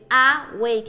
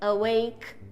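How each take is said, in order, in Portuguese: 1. A primeira vogal é plena e clara. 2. A primeira vogal é fraca e neutra, um schwa. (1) "em vez de awake" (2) "é awake"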